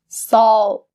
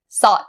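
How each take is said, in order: First: The L sound is clearly pronounced. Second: The L sound is weak or missing. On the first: The speaker calls it right. "roll your tongue" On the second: The speaker calls it wrong. "You can't say salt"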